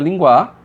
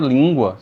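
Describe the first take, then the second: First: The stress is on the second syllable. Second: The stress is on the first syllable. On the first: The speaker calls it wrong. "Se você tirar o acento de língua, fica linguar" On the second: The speaker calls it right. "a palavra língua"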